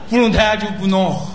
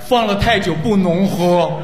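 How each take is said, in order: First: The phrase is said quickly and run together. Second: The phrase is said slowly and clearly.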